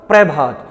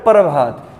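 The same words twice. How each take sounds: First: "प्रभात" with p and r fused as "pre-bhaat"; "प्रभात" opening on a joined "pre"; joined "pra" pronunciation. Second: "प्रभात" said as "par-bhaat"; "प्रभात" opening on "par", r closing the syllable; split "par" pronunciation. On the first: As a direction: say "प्रभात" with a tight pr cluster, no vowel between. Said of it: "उच्चारण करूँ तो क्या बोलेगा". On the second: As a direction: put a vowel between p and r in "प्रभात". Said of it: "एक क्या होता है". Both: Shown as a demonstration.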